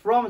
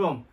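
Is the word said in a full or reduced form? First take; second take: full; reduced. First: The word is said in its full, strong form. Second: The word is said in a weak, reduced form. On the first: The speaker calls it wrong. "from じゃなくて" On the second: The speaker calls it right. "前置詞も弱くなります"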